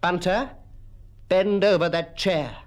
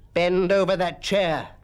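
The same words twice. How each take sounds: First: Firm command, pitched a little higher; stern schoolmaster's order. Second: Slow, drawn-out stern command; thundering order. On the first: Acted. Mister Quelch picks up his cane, stern command. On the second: A narrator's reading. Mister Quelch thundered at Bunter, slow forceful command. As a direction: repeat the order slowly and forcefully. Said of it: "thundered Mister Quelch".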